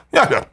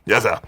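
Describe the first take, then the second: First: Yes, sir. said high in a rich British accent; posh British. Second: Said in the usual way. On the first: Shown as a demonstration. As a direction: make Yes, sir. sound like a rich English gentleman, pitched high. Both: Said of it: "why does that sound British and rich if I just go".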